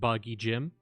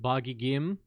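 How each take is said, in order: First: The second word starts with a j sound. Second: The second word starts with a hard g. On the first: This is the speaker's preferred way. "or as I like to pronounce it" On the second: This is the usual name. "we have Boggy Gim"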